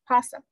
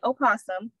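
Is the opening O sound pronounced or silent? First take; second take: silent; pronounced. First: The word begins directly with the P sound. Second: The word begins with an audible O sound. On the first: "the O can be silenced and be pronounced possum" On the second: "pronounce the first O and say opossum"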